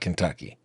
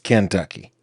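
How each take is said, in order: First: The stress is on the second syllable. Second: The stress is on the first syllable. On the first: This is how it is usually said elsewhere. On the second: This is how it is said in the South.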